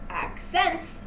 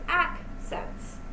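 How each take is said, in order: First: The stress is on the second syllable. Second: The stress is on the first syllable. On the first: The speaker calls it wrong. "You don't pronounce it accents" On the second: The speaker calls it right. "an intense and then a lull"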